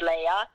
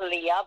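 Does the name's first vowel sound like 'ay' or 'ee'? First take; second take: ay; ee. First: The first vowel sounds like 'ay' in day. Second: The first vowel sounds like 'ee' in see. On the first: The speaker calls it right. "It's Leia" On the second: The speaker calls it wrong. "not Leah"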